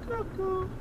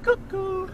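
First: High, softer cuckoo repeat; faint high cuckoo; softer cuckoo echo. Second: High sing-song cuckoo; high hooting cuckoo; cuckoo call. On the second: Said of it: "go a bit". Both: Shown as a demonstration.

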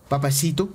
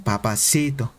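First: Said in the usual way. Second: Low, imitated Colombian "Papacito"; Colombian accent. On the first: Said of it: "Oye, ¿puedes decir". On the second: Streamer showing how Colombian women say it, imitated Colombian accent. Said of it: "las colombianas, ¿cómo lo dicen?".

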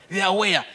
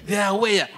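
No difference in how they are said.

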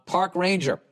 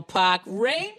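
First: Said in the usual way. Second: Put-on higher Boston accent, rising on the end; hammed-up Boston "pahk rangah". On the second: Fellow masshole, Boston-style ending.

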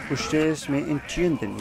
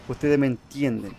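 First: Slow, drawn-out "Ustedes me entienden"; odd pronunciation. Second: Said in the usual way. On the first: Real, not acted. Player tells viewers they understand him, in odd pronunciation. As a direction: stretch "entienden" slowly and oddly. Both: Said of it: "ya que yo hablo medio raro".

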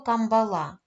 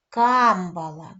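First: "камбала" with the stress on the last syllable "ла"; village mispronunciation, final stress. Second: "Камбала" slow, with a loud, long "Кам"; correct first-syllable stress. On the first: Retold or imitated. Teacher quoting how villagers say it, "камбала" stressed on the last syllable. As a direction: put the accent at the end of "камбала". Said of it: "Більшість людей нашого села називають". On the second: Shown as a demonstration. Teacher correcting villagers, "Камбала" stressed firmly on the first syllable. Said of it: "як правильно треба називати це слово".

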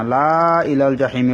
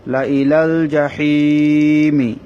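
First: "লা" dragged long, "জাহিমি" passed over short; wrong reading. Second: Short "লা", long held hii in "জাহিমি"; correct recitation. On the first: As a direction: say "লা ইলাল জাহিমি" with a stretched opening laa. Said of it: "বলা হবে না". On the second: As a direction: recite "লা ইলাল জাহিমি" slowly, stretching only hii. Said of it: "আলিফটা পড়া হবে না". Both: Shown as a demonstration.

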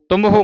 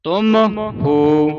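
First: ਤੁਮ ਹੋ run together as one word; ਤੁਮ ਹੋ squashed into "tumho"; wrongly joined. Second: ਤੁਮ, pause, then long ਹੋ; two distinct words, ਤੁਮ... ਹੋ; separated words. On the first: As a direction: rush ਤੁਮ straight into ਹੋ without a gap. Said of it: "ਇਕੱਠਾ ਨਹੀਂ ਉਚਾਰਨ ਕਰਨਾ". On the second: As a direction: say ਤੁਮ and ਹੋ apart, ਤੁਮ higher. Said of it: "ਵੱਖਰਾ ਵੱਖਰਾ ਬੋਲਣਾ ਹੈ". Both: Shown as a demonstration.

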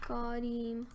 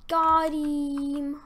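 First: Said in the usual way. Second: High, loud, stretched-out cheer; triumphant shout. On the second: Real, not acted. Gamer celebrating a hit, loud triumphant cry. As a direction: crow it loudly over the hit.

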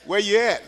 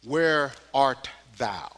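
First: Casual street talk; street version. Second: Put-on slow, solemn old English phrasing; King James reading. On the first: Preacher translating scripture to the street, casual. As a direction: toss it off like a neighbor on the corner. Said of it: "Let me take that down to the street". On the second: Preacher quoting the King James Bible, slow and solemn. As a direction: intone it like scripture. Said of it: "I'll quote it from King James 'cause it sounds so good". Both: Shown as a demonstration.

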